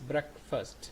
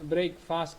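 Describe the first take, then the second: First: It is said as one blended word. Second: It sounds like the two words break fast. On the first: The speaker calls it right. "This is breakfast" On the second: The speaker calls it wrong. "That's wrong. Don't pronounce it breakfast. That is not breaking fast"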